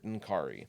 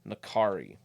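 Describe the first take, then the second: First: No vowel is heard between the N and K. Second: A vowel is heard between the N and K. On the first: "it's an N apostrophe" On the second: "Nakari just makes sense, is easier to say"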